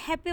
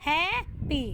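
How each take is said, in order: First: Said in the usual way. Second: happy with a long, stressed first syllable, then a pause; stress on हैप्पी's first syllable. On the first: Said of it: "इसमें हम करेंगे focus". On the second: Shown as a demonstration. Teacher showing syllable stress to students, first syllable of happy stressed. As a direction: draw out the opening syllable of happy. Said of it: "stress किस पे करेंगे".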